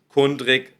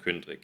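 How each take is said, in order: First: The first vowel is a plain oo sound. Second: The first vowel is a rounded ü sound. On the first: The speaker calls it wrong. "es ist nicht Kundrig" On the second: The speaker calls it right. "sondern Kündrig"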